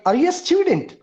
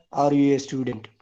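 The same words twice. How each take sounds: First: "Are you a student?" said much higher, asking; question tune. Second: "Are you a student?" lower and falling like a statement; wrong take, "student" drops flat; flat statement tune. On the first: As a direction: pitch up high through "student". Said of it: "A question has to be said as a question". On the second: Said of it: "It's not that you are a student". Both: Shown as a demonstration.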